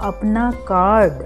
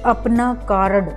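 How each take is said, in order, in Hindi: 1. r को हल्की आधी ध्वनि की तरह बोला जाता है। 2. r को पूरे स्वर के साथ बोला जाता है। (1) "शुद्ध होगा ... तो कम आवाज निकालनी है" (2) "अशुद्ध ... अब यहाँ ये शब्द गलत है"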